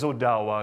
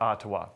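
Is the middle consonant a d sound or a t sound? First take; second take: d sound; t sound. First: The middle consonant is a soft d sound. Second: The middle consonant is a t sound. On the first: The speaker calls it right. "it is Odawa" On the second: The speaker calls it wrong. "it's not Ottawa"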